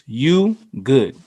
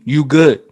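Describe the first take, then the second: First: It sounds concerned and caring. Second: It sounds threatening and confrontational. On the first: The speaker is checking whether someone is okay. "this could mean literally, are you okay?" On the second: The speaker is ready to fight. "as in we're about to fight"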